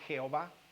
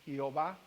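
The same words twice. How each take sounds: First: It begins with a harsh throaty j sound. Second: It begins with a soft y sound. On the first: "aunque le dicen Jehová" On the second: "tiene la pronunciación como una I, pero suave"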